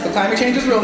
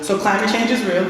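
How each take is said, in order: First: "So climate change is real" louder and firmer, weight on "real"; emphatic restatement. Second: Said in the usual way. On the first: Shown as a demonstration. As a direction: plant it hard, falling on "real".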